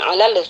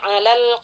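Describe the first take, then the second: First: The final L sound bounces with an echo. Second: The final L sound is plain and clear. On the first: The speaker calls it wrong. "jangan sampai terpantulkan ya. Jadi bukan alal" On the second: The speaker calls it right. "Di sini kita baca jelas alif lamnya"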